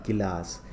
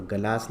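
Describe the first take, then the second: First: Said in the usual way. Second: गलास with a short a after ग; गलास, opening on ga instead of gi; misspelt reading. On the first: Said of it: "कहाँ आएगी छोटी ई की मात्रा?". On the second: Shown as a demonstration. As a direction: say गलास without the i vowel. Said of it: "गलास नहीं होता है".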